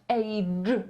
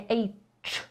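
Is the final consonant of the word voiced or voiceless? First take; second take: voiced; voiceless. First: The final consonant is voiced. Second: The final consonant is voiceless. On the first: The speaker calls it right. "wymawiamy to dźwięcznie. To znaczy, że będziemy mówić age" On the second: The speaker calls it wrong. "a nie age"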